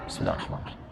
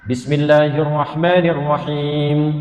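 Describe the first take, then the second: First: It is recited quietly, almost under the breath. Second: It is recited aloud in a clear voice.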